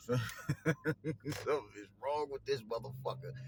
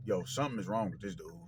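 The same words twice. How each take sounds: First: Slow, laughing through the words; laughing disbelief. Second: Said in the usual way. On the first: Real, not acted. Repeats line, then laughs.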